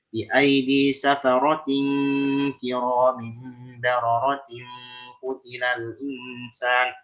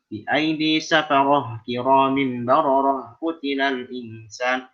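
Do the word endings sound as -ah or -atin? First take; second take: -atin; -ah. First: The word endings are sounded as -atin. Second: The word endings are sounded as -ah. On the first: The speaker calls it right. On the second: The speaker calls it wrong.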